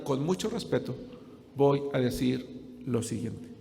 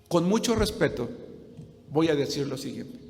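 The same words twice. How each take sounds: First: "con mucho respeto" said slow and much softer, each word weighed; underlined, quiet emphasis. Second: Said in the usual way. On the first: Shown as a demonstration. Pastor underlining a delicate point to the congregation, slow and hushed. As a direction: lean in quietly to underline "voy a decir lo siguiente".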